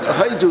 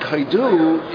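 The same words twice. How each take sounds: First: The stress is on the first syllable. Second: The stress is on the final syllable. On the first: It names a place. "Haidu is the name of a place" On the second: It means to praise. "Haidu is to praise. Haidu Lashem is Milram"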